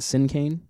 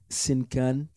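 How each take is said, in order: First: It is said in a plain everyday accent. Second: It is said with a French accent. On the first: This is the band's own usual pronunciation. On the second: This is how people in France say it.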